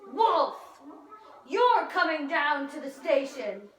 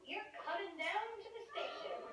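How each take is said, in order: First: It is said at a louder volume. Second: It is said at a softer volume.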